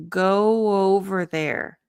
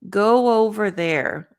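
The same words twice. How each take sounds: The two takes are said the same way.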